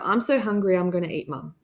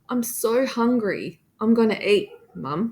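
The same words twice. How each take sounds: First: There is no pause before Mum. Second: There is a short pause before Mum.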